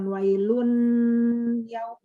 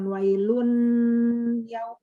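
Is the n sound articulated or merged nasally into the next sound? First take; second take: articulated; articulated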